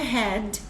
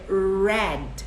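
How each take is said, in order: First: The R sounds breathy, like an H. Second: The R is curled back, like a retroflex R. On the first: The speaker calls it wrong. "não é head" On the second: The speaker calls it right. "é o R sempre ter o som puxado, do caipira"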